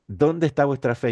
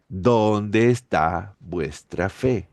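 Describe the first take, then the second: First: Said in the usual way. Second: Drawn out, each word weighed; slow, searching question to the disciples; slow rebuke. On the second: Acted. Jesus slowly asking his fearful disciples, slow grave rebuke.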